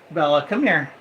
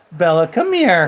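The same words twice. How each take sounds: First: Said in the usual way. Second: Louder, insistent call to a pet; calling the dog. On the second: Real, not acted. Owner calls jealous dog Bella over, loud summons.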